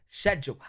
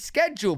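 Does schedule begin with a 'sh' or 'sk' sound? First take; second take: sh; sk. First: The word begins with a 'sh' sound. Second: The word begins with a 'sk' sound. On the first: The speaker calls it wrong. "That's like a shed going to the hull" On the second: The speaker calls it right. "There's no shed, bro, in schedule"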